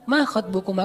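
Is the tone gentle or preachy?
gentle. It is said in a soft, polite tone.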